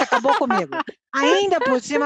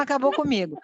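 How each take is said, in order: First: Said through a laugh. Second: Said in the usual way. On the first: Real, not acted. Mother laughing at her son's answer, amused. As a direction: laugh as you admit defeat.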